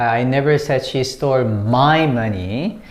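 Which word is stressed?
my. The word "my" carries the main stress. The money taken belonged to someone else. "It could be yours, it could be his, or it could be hers"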